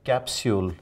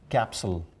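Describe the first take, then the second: First: The word is said in a British accent. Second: The word is said in an American accent. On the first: "We use the word capsule in British English" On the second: "But look at the Americans"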